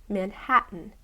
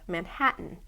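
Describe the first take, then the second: The two takes are said the same way.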